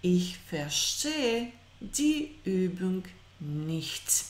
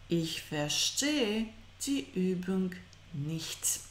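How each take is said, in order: Both takes have the same delivery.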